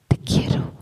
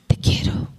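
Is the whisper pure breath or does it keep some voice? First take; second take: voice; breath. First: It is whispered but keeps some voiced timbre. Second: It is whispered with only air, no voice.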